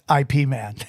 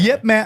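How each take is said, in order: First: The first part is said as two letters. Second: The first part is said as one syllable, 'yip'. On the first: This is how people here usually say it. The speaker calls it wrong. "Everybody over here says I P Man" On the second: This is how it is said in Chinese. The speaker calls it right. "in Chinese it's Yip Man"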